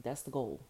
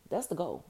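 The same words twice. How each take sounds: First: Said in the usual way. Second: "That's the goal" said higher and louder; emphatic. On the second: Shown as a demonstration.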